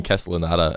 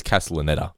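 First: Castellanata with "ah" before the final ta; mistaken pronunciation. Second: Castellaneta ending in "ETT-a"; his own pronunciation. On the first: Admitting to saying it wrong too, mistaken pronunciation. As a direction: say Castellanata ending in "AH-ta". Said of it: "I think I've been saying". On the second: Quoting how the man says it, his own pronunciation. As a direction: say Castellaneta with "e" as in "net". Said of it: "well, he says Castellaneta". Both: Shown as a demonstration.

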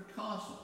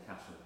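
First: "castle" with a long, drawn "ah" vowel; southern long A. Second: Said in the usual way. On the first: Acted. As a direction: say "castle" as "cah-sul", acting royal. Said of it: "I'm from Birmingham, I say castle, but acting". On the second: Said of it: "I say castle".

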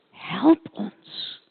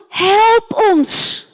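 First: Softer, fainter plea for help; soft echo. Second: Pleading call. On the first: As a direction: let it fade like a far-off echo. Echoed call for help. (zacht nagalmend smeken) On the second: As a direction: shout it across the water, begging. Man calls across the sea. (hoog en luid om hulp roepen) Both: Acted.

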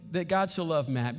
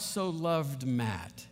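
First: Said in the usual way. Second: So loved Matt, each word slow and soft; slow emphasis. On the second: Shown as a demonstration. Preacher savoring the verse to his congregation, slow and soft. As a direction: lean slowly on so loved Matt. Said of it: "when I realized that God".

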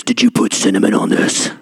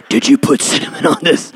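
First: Deep, low mock wife voice; lowered imitation of the wife's question. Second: Unvoiced, hissed mock accusation; breathy mock accusation; whispered wife. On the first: Husband mimics his wife asking, in a deep mock voice. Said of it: "That's exactly how she sounds". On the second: Husband redoes his wife's accusation, in a hissed whisper. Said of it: "Don't let her fool you".

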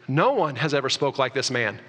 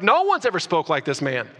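First: Said in the usual way. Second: A mild amazed exclaim on ever; exclamation. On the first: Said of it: "Exclamation point". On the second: Retold or imitated. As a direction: say it as the awed guards would, lightly. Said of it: "Like, they're like".

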